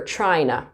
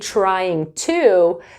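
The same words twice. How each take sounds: First: The two words blend into one reduced form. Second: Both words are said fully and clearly. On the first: "you'll hear trying to" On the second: "instead of saying trying to"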